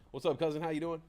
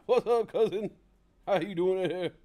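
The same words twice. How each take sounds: First: Said in the usual way. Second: Loud, high, booming comic greeting; Bernie Mac. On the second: Retold or imitated. Greeting the audience as Bernie Mac, loud and booming. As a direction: throw the greeting out big like a stand-up host. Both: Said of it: "Bernie Mac".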